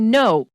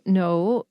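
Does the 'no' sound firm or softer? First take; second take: firm; softer. First: The no sounds firm and harsh. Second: The no sounds softer and less harsh. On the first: It comes across as scary and rude. "that's very firm. It's also a little bit scary" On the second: It still says the other person is wrong. "it's a little less rude"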